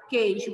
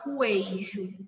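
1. Nenhum som de 'u' segue o primeiro som de 'k'. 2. Um som de 'u' segue o primeiro som de 'k'. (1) "Você fala queijo. Você não pronuncia a letra U" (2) "Você não fala queijo"

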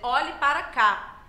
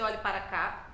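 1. A frase é dita com entonação exclamativa e emotiva. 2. A frase é dita de forma neutra, sem emoção. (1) "Vou dizer olhe para cá. A entonação é diferente" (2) "eu não vou dizer olhe para cá quando tem ali um ponto de exclamação"

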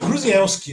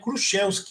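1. O nome é falado com sons do português brasileiro. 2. O nome é falado com som de sh. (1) "como se diz em português" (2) "em polonês, né, em polaco, aí o SZ tem som de sh"

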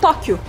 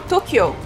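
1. É dito com pronúncia portuguesa. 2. É dito com pronúncia japonesa. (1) "a gente fala Tóquio" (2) "a gente não fala Tokyo"

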